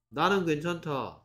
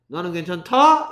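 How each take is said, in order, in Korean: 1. 끝에서 음이 내려가요. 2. 끝에서 음이 올라가요. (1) "근데 왜 그런 느낌이 들게 말을 하냐고요" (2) "이럽니까?"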